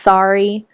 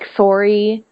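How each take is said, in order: First: It is said with an American vowel. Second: It is said with a Canadian vowel. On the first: "instead of" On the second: "I pronounce things differently than American people"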